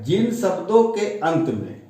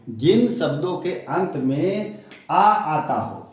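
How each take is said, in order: First: Said in the usual way. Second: Slower, careful repeat. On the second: Shown as a demonstration. Teacher to pupils, repeating the rule slowly and deliberately. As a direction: rule restated slowly, leaning on आ. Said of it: "repeats the rule more slowly".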